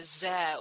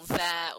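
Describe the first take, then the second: First: The word begins with a z sound. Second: The word begins with a th sound. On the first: The speaker calls it wrong. "the French would pronounce with a Z sound" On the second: The speaker calls it right. "The sound th at the big at the beginning of words"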